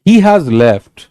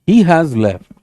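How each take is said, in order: Both takes have the same delivery.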